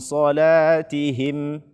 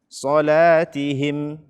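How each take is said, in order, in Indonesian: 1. Huruf h dan vokal i-nya diucapkan dengan jelas. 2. Huruf h dan vokal i-nya diucapkan dengan jelas.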